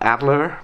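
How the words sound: It is said with an American pronunciation. The speaker calls it wrong. "that's the American kind of way to pronounce the German word"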